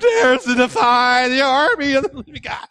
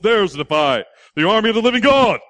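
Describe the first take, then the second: First: The voice is put on high and boyish. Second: The voice is put on deep and heavy. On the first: The speaker calls it right. "he probably just barely gone through puberty" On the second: The speaker calls it wrong. "He didn't talk that deep"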